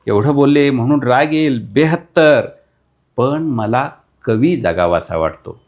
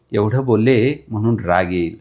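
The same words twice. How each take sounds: First: Emphatic recital. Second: Said in the usual way. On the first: Acted. Repeated line, rising emphasis.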